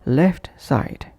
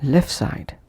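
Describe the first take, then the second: First: LEFT SIDE with the t of LEFT released; full final T. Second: LEFT SIDE as "lef side"; dropped T. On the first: Teacher repeating separate words, full final T. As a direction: say "left" fully, then "side". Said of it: "pronounced as". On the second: Teacher repeating connected pronunciation, dropped T. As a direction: push "lef" straight into "side". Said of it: "omitting T or T completely". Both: Shown as a demonstration.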